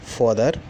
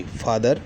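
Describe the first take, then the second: First: फादर said as "pod-er", with a rounded o; फादर mispronounced with a short o, quickly corrected; slip of the tongue. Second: फादर with a breathy ph and an open long a, "phaa-dar"; फादर said carefully and correctly after a sorry; corrected pronunciation. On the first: Teacher reading a word list to the class, misreads फादर with an o. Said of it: "sorry, फादर". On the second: Teacher correcting her own slip for students, फादर said carefully as phaa-dar. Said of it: "sorry". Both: Shown as a demonstration.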